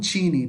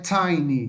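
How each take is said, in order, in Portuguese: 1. A primeira vogal soa como 'ee'. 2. A primeira vogal soa como 'eye'. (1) "não teeny" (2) "Aqui é tiny"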